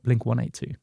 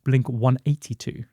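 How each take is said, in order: First: Eighty-two runs together without any break. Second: There is a break between eighty and two. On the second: "in the States, it's pronounced"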